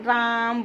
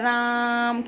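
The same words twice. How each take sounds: First: The vowel is held for a normal length. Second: The vowel is stretched out for a long time. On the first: "जैसे हम राम बोलते हैं" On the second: "राम खींच के"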